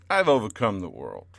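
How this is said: It is said with a sassy attitude.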